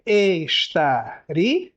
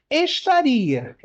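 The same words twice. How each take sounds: First: "estaria" very slow, lower, rising end; drawn out slowly. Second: "Estaria" slow, "ri" held and stressed; syllables shown. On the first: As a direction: estique "estaria" bem devagar. ("estaria" arrastado, tom mais grave) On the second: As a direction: separe "Estaria" devagar mostrando o hiato. ("Estaria" lento com hiato marcado) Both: Shown as a demonstration. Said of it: "contêm hiato".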